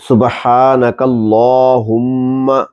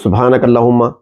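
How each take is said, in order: First: The vowel after the L is long. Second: The vowel after the L is short. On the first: The speaker calls it right. "इस पर खड़ा जबर है" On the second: The speaker calls it wrong. "ऐसे नहीं पढ़ना चाहिए"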